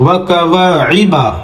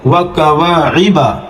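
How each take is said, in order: First: وکواعبا slow, alif held long, عین and با quick; drawn-out alif. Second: وکواعبا with long alif, then عین and با read quickly; quick ain and ba. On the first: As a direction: stretch the alif in وکواعبا about two seconds. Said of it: "الف مدہ ہے تو تھوڑا سا کھینچا جائے گا". (وکواعبا میں الف کو دو second کھینچیں) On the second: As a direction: glide fast over the end of وکواعبا. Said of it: "جلدی سے پڑھ کے نکلا جائے گا". (وکواعبا میں عین اور با جلدی سے) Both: Shown as a demonstration.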